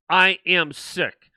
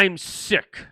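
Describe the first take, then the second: First: I am sick drawn out slowly, AM leaned on; slow emphatic I AM. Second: Said in the usual way. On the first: Real, not acted. Host stressing AM to his audience, slowly. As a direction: stress AM, slow each word right down.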